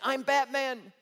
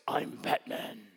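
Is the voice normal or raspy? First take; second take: normal; raspy. First: It is said in a normal voice. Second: It is said in a raspy voice.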